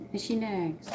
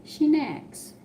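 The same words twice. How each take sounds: First: Said in the usual way. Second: SHE pitched way up and hit hard, then falls; emphatic she nags. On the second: Retold or imitated. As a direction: stress the word She high and sharp, like a mock complaint. Mocking a nagging wife.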